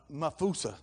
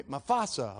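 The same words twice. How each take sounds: First: Mafusa with an "oo" in the middle; name mispronounced. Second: Mufasa with an "ah" in the middle; name corrected. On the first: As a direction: say Mafusa as muh-FOO-suh. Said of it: "what was his name". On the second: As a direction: say Mufasa as muh-FAH-suh. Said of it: "Mafusa, Mufasa". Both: Real, not acted.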